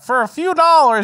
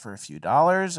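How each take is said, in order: First: It is said in a showy carnival barker voice. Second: It is said in a calm, measured voice. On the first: It sells the show openly as a spectacle. "instead of doing it in the old timey voice" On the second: It presents the same show as polite and respectable. "now they have like a more measured voice and a s- different tone"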